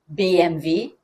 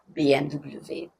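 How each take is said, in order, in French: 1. Les lettres se prononcent à l'allemande. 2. Les lettres se prononcent à la française. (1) "vous pouvez prononcer correctement" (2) "vous ne dites pas"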